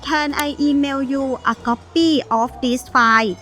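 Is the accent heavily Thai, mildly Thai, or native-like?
heavily Thai. Strong Thai accent; file sounds like flight. The meaning changes because the word sounds different. The speaker calls it wrong. "accent ภาษาไทยกันก่อนนะคะ"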